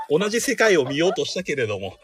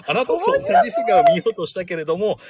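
First: Said in the usual way. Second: High, hammed-up tearful line; melodramatic heroine. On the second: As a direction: overplay it like a tragic heroine. (芝居がかった悲劇のヒロイン) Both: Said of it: "みたいな感じで".

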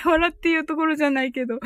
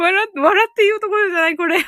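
First: Said in the usual way. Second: Louder and fast, laughing it out; loud laughing retort. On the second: Real, not acted. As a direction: blurt it through laughter.

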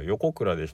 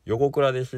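First: 横倉です in the relaxed local pitch; 横倉です the home-town Kagawa way; local intonation. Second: 横倉です raised and louder, formal outsider pitch; 横倉です said the careful, standard way; polite standard intonation. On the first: (地元のイントネーションで「横倉です」) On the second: (よそ行きのイントネーションで「横倉です」) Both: Shown as a demonstration. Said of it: "相手に合わせて".

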